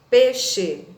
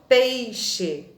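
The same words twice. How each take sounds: First: The first syllable has a plain e, no i. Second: The first syllable has an audible i glide. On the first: The speaker calls it right. "a gente retira o i da palavra e fala apenas peixe" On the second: The speaker calls it wrong. "e não peixe"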